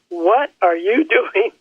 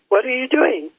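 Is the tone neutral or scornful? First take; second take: scornful; neutral. First: It is asked in a scornful, belittling tone. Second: It is asked in a plain, neutral tone.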